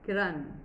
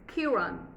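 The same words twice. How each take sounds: First: The stress is on the second syllable. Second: The stress is on the first syllable. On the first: This is how it is said in India. "our focus is the second syllable" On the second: This is how native English speakers say it. "First syllable stress"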